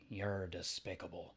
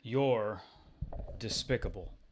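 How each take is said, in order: First: It is said in a stronger Daffy Duck voice. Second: It is said in a plainer voice.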